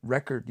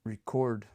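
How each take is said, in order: First: Record stressed on the first syllable, REC-ord; noun stress. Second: Record stressed on the second syllable, re-CORD; verb stress. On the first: Testing his wife's example, record stressed on REC. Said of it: "if you say record, it's a thing". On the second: Testing his wife's example, record stressed on CORD. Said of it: "if you say record, that's like an action". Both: Shown as a demonstration.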